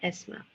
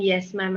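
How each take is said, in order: First: Yes sounds like the letter S. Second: Yes begins with a clear y sound. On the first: The speaker calls it wrong. "and not yes ma'am" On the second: The speaker calls it right. "practice saying yes ma'am"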